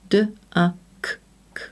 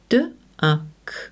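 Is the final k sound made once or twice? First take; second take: twice; once. First: The final k sound is made twice. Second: The final k sound is made once. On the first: The speaker calls it wrong. "and not d-a-k-k" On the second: The speaker calls it right.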